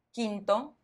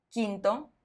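Both takes have the same delivery.

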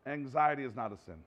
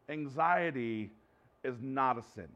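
First: "Anxiety" hit first and firmest, rest of the line falling away; stress on anxiety. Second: Anxiety drawn out slowly, weight landing on "not" in "is not a sin"; slow stress on not. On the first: Pastor repeating to congregation, stress now on "Anxiety". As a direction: punch the word "Anxiety", then let "is not a sin" fall. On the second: Pastor to congregation, first slow take stressing "not". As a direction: lean hard on "not" in "is not a sin", unhurried. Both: Shown as a demonstration.

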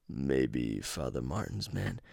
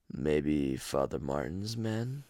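First: Slow, low, softer calm killer twin. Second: Slow, low, soft calm twin; calmer twin voice. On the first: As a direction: murmur it slow as the calmer twin. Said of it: "I'm trying to do their voices". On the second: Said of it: "one sounds a little bit more raspier". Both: Retold or imitated.

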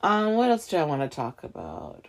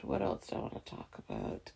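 First: Said in the usual way. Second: Much softer and lower, half to herself; muttered aside. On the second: Real, not acted. Musing to herself about the next topic, muttered quietly. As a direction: mumble it under your breath.

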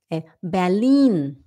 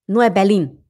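First: Slow Berlin with long clear i and n; careful German Berlin; correct Berlin. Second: Berlim with nasal Portuguese m; mock Portuguese Berlim; wrong Berlim. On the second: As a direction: say Berlim the Brazilian way. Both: Shown as a demonstration.

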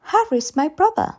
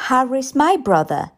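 First: Put-on high child's voice, simply stating it; small girl, matter-of-fact, lifting on "brother"; high, childlike reply rising at the end; little girl's statement. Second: Put-on child insisting, leaning hard on "my"; "my" punched higher in a little girl's voice; stubborn child, stressing "my"; insistent stress on MY. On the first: Child first states who Harry is. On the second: Child insists after being contradicted. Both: A narrator's reading.

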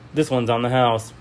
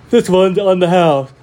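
First: Said in the usual way. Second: High, loud robot bartender. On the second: Acted. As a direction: boom it like an old robot. Robot bartender, loud first take.

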